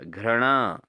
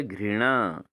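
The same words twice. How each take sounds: First: घृणा said as "ghra-na", with an a after r; wrong pronunciation. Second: घृणा said as "ghri-naa", with ri; correct pronunciation. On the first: Teacher shows students the error, घृणा mispronounced "ghrana". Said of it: "घृणा नहीं होता दोस्तों". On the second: Teacher gives students the correct form, घृणा as "ghrinaa". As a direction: give घृणा a clear "ghri" start. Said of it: "क्या होता है?". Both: Shown as a demonstration.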